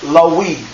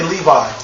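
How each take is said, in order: First: The middle consonant is a W sound. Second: The middle consonant is a V sound. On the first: "that V sound wasn't there. So it was Lawi" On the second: "Say Levi"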